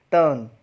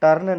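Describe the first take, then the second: First: टर्न as "tuhn", long vowel for r; silent R. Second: टर्न with an audible r before n; R pronounced, wrong example. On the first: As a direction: drop the r in टर्न, hold the vowel. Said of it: "आर को अ से fit करना पड़ेगा". (टर्न में आर की जगह लंबा "अ") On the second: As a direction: sound the r in टर्न, as the mistake. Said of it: "टर्न नहीं". (टर्न में "र" का साफ़ उच्चारण) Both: Shown as a demonstration.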